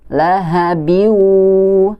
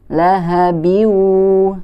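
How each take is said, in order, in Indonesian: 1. Bunyi n menyatu menjadi bunyi w sengau. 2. Bunyi n menyatu menjadi bunyi w sengau.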